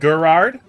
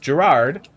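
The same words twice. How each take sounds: First: The name begins with a hard G sound. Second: The name begins with a soft J sound. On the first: "don't you mean Gerard?" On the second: "the G is pronounced like a J"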